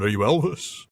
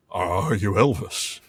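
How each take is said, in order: First: Light [name] voice. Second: Slow, low lightly voiced [name]; a hint of [name] drawl. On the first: Pretend. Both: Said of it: "I will never do an [name] impression again".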